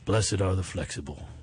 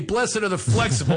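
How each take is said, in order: First: It is spoken in a soft Western cowboy accent. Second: It is spoken in a Philadelphia accent. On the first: Someone else said it. The speaker calls it right. "It's coming out of a cowboy accent" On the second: The speaker says it himself. The speaker calls it wrong. "in my Philly accent, it's not the same"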